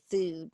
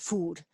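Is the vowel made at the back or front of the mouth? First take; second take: front; back. First: A Shreveport accent with the vowel far forward. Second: An Irish accent with the vowel far back.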